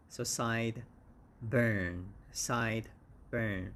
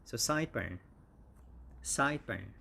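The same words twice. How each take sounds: First: "side" and "burn" split apart, SIDE stressed; teacher splitting "side burn" slowly; syllable by syllable. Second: "sideburn" joined as one word, SIDE-burn; "sideburn" said whole, first syllable stressed; run together. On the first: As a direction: break "side burn" into two beats. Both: Shown as a demonstration. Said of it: "the stress is on the first syllable".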